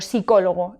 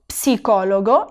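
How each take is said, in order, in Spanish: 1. El sonido inicial de la P es mudo. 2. El sonido inicial de la P se pronuncia claramente. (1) "sin la P" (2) "fijaros bien que la P la tengo que pronunciar"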